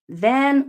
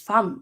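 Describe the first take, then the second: First: The word begins with a v sound. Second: The word begins with an f sound.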